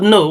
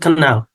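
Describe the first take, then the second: First: The word starts with a plain n sound. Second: The word starts with a k sound. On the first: The speaker calls it right. "in place of" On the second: The speaker calls it wrong. "we are saying"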